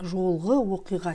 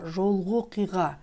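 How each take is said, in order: First: The final vowel of the first word is pronounced. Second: The final vowel of the first word is dropped. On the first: The speaker calls it wrong. "Не как жолғы оқиға читается" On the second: The speaker calls it right. "В слове жолғы «ы» опускается"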